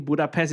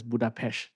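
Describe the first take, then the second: First: Said in the usual way. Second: Budapest with final S turned to SH; Hungarian-style pronunciation. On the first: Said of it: "the Hungarian name Budapest". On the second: Shown as a demonstration. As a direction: end Budapest on "pesh". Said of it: "is pronounced as Budapest".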